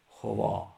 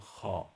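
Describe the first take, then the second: First: A w sound follows the first consonant. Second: No w sound follows the first consonant. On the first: The speaker calls it wrong. "ما وقتی تلفظ میکنیم نمیگیم خوا" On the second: The speaker calls it right. "میگیم خا"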